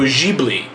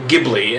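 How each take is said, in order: First: The word is said in a non-American way. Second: The word is said the common American way. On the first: The speaker calls it right. "actually pronounced Studio Ghibli" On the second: The speaker calls it wrong. "as most Americans pronounce it"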